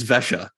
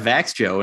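First: It ends with a soft 'sha' sound. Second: It ends with an English-like 'joe' sound. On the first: The speaker calls it right. "No, wrong. It's Vesha" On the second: The speaker calls it wrong. "he just was peeing himself in my pronunciations of the Swedish teams"

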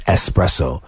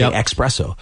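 First: The word begins with an es sound. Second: The word begins with an ex sound. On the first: The speaker calls it right. "It's espresso. There's no X in it" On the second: The speaker calls it wrong. "A lot of people say it that way. They say espresso"

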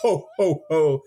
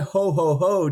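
First: The laugh is clipped and staccato. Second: The laugh flows smoothly and naturally.

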